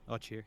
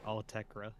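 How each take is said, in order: First: The name sounds like two syllables, oh-cheer. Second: The name sounds like three syllables, all-tek-ra. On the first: This is how someone else was heard saying it. The speaker calls it wrong. "I've just been saying it how I heard someone else say it" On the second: This is how the name is actually pronounced. The speaker calls it right. "It seems like it's actually pronounced Altekra"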